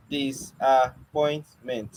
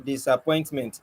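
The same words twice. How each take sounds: First: Disappointment drawn out slowly, dis-ap-point-ment, syllables pulled apart. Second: Said in the usual way. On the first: Shown as a demonstration. Teacher slowly breaking Disappointment into syllables for the students. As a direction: stretch Disappointment so each stop is heard. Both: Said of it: "How is it five?".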